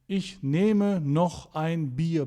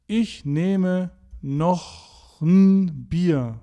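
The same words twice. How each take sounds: First: The article is said in full as 'ein'. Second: The article is reduced to 'n' after 'noch'. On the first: "That's the version that you learned in your German course" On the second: "I've changed the indefinite article ein to n"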